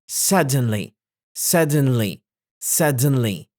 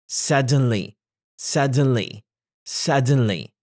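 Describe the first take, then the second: Both takes have the same delivery.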